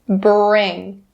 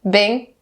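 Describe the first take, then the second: First: The r sound after the b is clearly pronounced. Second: The r sound after the b is left out. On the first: The speaker calls it right. "Bring, bring" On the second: The speaker calls it wrong. "be careful to not skip the er sound. Don't say bing, bing, not correct"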